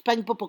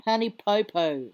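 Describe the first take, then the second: First: "Pangi Popo" with the Samoan ng sound and clear pure vowels, quick and sure; proper Samoan pronunciation. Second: "Pangi Popo" said the palangi way, clipped start, flat anglicised vowels; palangi pronunciation. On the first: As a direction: correct them by saying "Pangi Popo" the Samoan way. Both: Shown as a demonstration. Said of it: "Nah, it's Pangi Popo".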